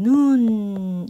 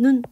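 First: The vowel is held long. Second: The vowel is kept short. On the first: It means snow falling from the sky. "하늘에서 내리는 눈은 눈 이렇게 길게 발음하지" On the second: It means a person's eye. "사람 눈은 눈 이렇게 짧게 발음하면서"

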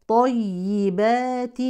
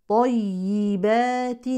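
The two takes are said the same way.

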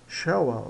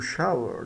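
First: It is said with a British accent. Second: It is said with an American accent. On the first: "dependendo do inglês, né? Se for o britânico ou americano" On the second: "dependendo do inglês, né? Se for o britânico ou americano"

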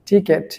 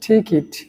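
First: The second syllable has an 'e' vowel, like 'ket'. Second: The second syllable has an 'i' vowel, like 'kit'. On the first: The speaker calls it wrong. "সেটাকে আমরা বলি টিকেট" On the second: The speaker calls it right. "এটার সঠিক উচ্চারণ হচ্ছে টিকিট"

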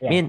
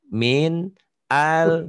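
First: The phrase is said quickly and rushed. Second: The phrase is said slowly and carefully. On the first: The speaker calls it wrong. "Jangan sepet ya. Jangan" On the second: The speaker calls it right. "supaya jangan cepet"

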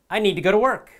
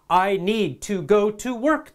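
First: Each 'to' is reduced and linked. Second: Each 'to' is said fully and carefully. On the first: The speaker calls it right. "Real people say" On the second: The speaker calls it wrong. "They do not say"

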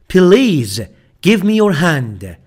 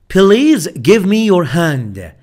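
No difference in how they are said.

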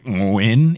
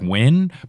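First: The start is made deep in the throat. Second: The start is a plain English w sound. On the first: The speaker calls it right. "I think the correct pronunciation... it's more like a" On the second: The speaker calls it wrong. "instead of just like win"

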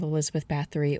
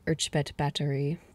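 First: The name is pronounced the English way. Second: The name is pronounced the Hungarian way. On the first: "the more anglicized version of the pronunciations" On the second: "I'm going to apologize in advance to my Hungarian listeners for however badly I pronounced that"

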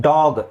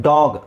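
Both takes have the same delivery.

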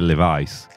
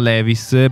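First: It is said with an American-style pronunciation. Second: It is said with an Italian-style pronunciation. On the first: This is how Americans say the brand. The speaker calls it right. "in America nessuno capisce, devi dire Levi's" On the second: This is how Italians usually say the brand. The speaker calls it wrong. "Noi diciamo Levi's"

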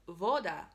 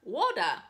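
First: The word begins with a V sound. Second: The word begins with a W sound. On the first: The speaker calls it right. "it is actually woda, woda, okay? Because the W here has a V sound" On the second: The speaker calls it wrong. "Then I was like, oh, water, woda, duh"

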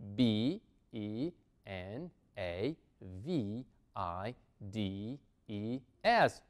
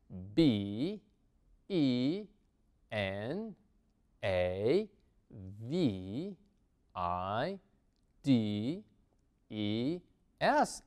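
First: The letters are spelled at a moderate pace. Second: The letters are spelled at a slow pace.

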